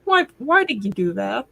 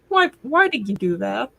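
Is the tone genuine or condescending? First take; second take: condescending; condescending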